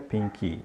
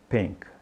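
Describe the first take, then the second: First: An extra vowel follows the final consonant. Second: The word ends cleanly on the final consonant. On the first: The speaker calls it wrong. "não diga pinky" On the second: The speaker calls it right. "diga pink"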